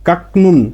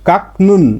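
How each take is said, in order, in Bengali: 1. প্রথম সিলেবলটি k শব্দে শেষ হয়। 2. প্রথম সিলেবলটি k শব্দে শেষ হয়।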